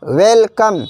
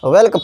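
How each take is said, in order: First: "welcome" pulled apart as well, come; each half of "welcome" given separately, well then come; split into two words. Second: Said in the usual way. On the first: Shown as a demonstration. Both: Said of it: "इसका भी संधि विच्छेद है".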